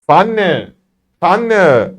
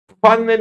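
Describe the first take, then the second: First: "Pfanne" starting straight on f; correct German Pfanne. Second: High "Pfanne" with a separate puffed p; wrong reading. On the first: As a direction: say "Pfanne" as fan-nuh, falling. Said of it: "direkt P diye". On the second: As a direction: misread "Pfanne" as puh-fanne. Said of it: "Pfanne değil". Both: Shown as a demonstration.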